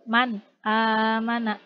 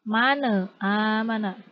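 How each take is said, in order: First: The n is pronounced cleanly and distinctly. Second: The n bounces with an added vowel. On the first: The speaker calls it right. "Tapi jelas" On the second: The speaker calls it wrong. "Tidak tidak dipantulkan"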